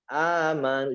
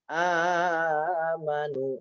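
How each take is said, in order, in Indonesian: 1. Vokalnya pendek, dibaca langsung. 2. Vokalnya dipanjangkan terlalu panjang. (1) "Ama langsung" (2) "Jadi bukan amanu"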